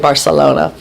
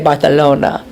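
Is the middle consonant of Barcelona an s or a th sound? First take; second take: s; th. First: The middle consonant is a plain s sound. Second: The middle consonant is a soft th sound. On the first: This is how people here say it. "and we say Barcelona" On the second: This is how people in Spain say it. "They say the for s. So they say Barcelona"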